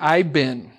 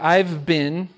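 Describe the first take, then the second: First: The words are squeezed into an even shorter form. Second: The words are contracted into a shorter form. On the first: "shortened to I've been" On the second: "shortened to I've been"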